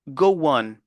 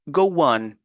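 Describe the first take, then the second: The two takes are said the same way.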